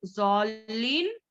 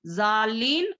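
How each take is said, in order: First: जौलिन with a thick rounded z for d; wrong zwad reading. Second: जालिन with a thin z for the heavy d; wrong thin reading. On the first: Teacher showing mistakes to avoid, thick z reading. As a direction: misread it as जौलिन, drawn out, heavy z. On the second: Teacher showing mistakes to avoid, thin z reading. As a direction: misread it as जालिन, light z and open aa. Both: Shown as a demonstration. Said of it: "इस तरीके से नहीं".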